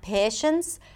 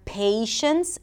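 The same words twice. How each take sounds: First: The vowel stays steady without gliding. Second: The vowel glides into a second sound. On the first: The speaker calls it wrong. "and not patience" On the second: The speaker calls it right. "a little Y sound for the A as in day"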